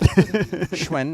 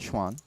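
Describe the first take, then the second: First: The vowel sounds like the one in 'when'. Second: The vowel sounds like the one in 'swan'. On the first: The speaker calls it right. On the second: The speaker calls it wrong.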